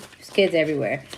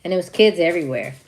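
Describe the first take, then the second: First: Put-on "kids everywhere" dropped low and soft, said half to herself; muttered aside. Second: Said in the usual way. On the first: Shown as a demonstration. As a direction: repeat it under your breath, lower and quieter.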